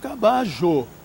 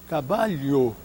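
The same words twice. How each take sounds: First: It is said with an Argentine Spanish accent. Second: It is said with a Madrid Spanish accent. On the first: "Os argentinos dirão" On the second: "Os espanhóis de Madrid dirão"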